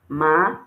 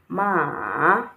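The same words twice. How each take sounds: First: The pitch rises from low to high. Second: The pitch dips down and then rises. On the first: "The second one has the rising tone on the A" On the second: "it fell, then it rose"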